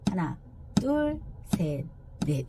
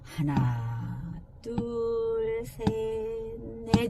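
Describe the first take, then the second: First: The counting is at a moderate speed. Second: The counting is slow.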